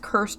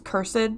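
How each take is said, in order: First: The -ed ending is not a separate syllable. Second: The -ed ending is a separate syllable.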